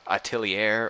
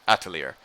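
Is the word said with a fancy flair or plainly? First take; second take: fancy; plain. First: The word is said with a fancy flair. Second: The word is said plainly, without flair. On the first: "say it with kind of like a flair" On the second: "or if it's just atelier"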